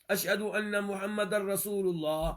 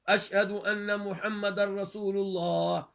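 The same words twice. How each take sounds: No difference in how they are said.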